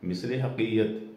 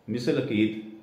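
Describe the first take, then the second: First: The second word starts with an h sound. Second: The second word starts with a vowel. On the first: "اس کو مثل حقیقت کہتے ہیں" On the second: "پٹواری صاحب نے اس کو پروناؤنس کیا مثل عقید"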